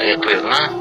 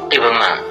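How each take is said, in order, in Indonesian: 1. Bentuk lengkap dengan konsonan yang diulang. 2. Bentuk singkat tanpa konsonan yang diulang. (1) "boleh membaca iqrirna" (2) "bisa ditakhfif atau diringankan"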